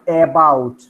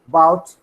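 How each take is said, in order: First: The first vowel is a full, unreduced vowel. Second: The first vowel is a short, reduced schwa. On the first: The speaker calls it wrong. "not about" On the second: The speaker calls it right. "So this is schwa"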